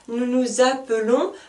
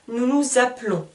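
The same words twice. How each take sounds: First: The vowel after 'app' is clearly pronounced. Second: The vowel after 'app' is silent. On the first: The speaker calls it wrong. "Je ne dis pas" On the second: The speaker calls it right. "je n'entends pas le E"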